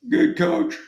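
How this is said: The voice sounds scared and timid.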